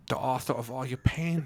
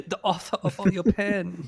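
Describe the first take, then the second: First: Menacing villain line, higher; hammy movie villain. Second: Laughing villain voice, Swedish tinge; hammy villain, slipping Swedish; villain impression. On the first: Retold or imitated. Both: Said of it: "mine keeps sounding Swedish".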